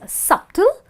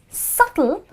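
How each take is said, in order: First: The B sound is pronounced in the word. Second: The B sound is silent in the word. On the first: The speaker calls it wrong. "this word is not pronounced as subtle" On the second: The speaker calls it right. "it is subtle because B T are together and B is silent"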